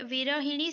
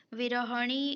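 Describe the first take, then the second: First: विरहिणी with a short इ on ह: "वि-र-हि-णी"; correct form. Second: विरहणी said slowly with a plain अ: "वि-र-ह-णी"; wrong form. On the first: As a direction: stress the हि in विरहिणी. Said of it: "विरहिणी सही है". (विरहिणी में "हि" साफ़ बोलें) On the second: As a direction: drag out विरहणी without the इ. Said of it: "विरहणी गलत है". (विरहणी को धीरे, बिना इ के बोलें) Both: Shown as a demonstration.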